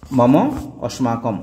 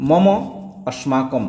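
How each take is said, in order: Both takes have the same delivery.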